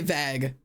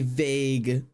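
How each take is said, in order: First: The vowel is not the letter-name A sound. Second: The vowel is the letter-name A sound. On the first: The speaker calls it wrong. "I also say vague" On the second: The speaker calls it right. "I think it's supposed to be vague"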